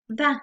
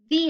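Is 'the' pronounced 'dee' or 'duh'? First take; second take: duh; dee. First: The word is pronounced like 'duh'. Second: The word is pronounced like 'dee'. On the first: "sonido consonante inicial" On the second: "cuando se pronuncia como fue. Cuando tengo un sonido vocal"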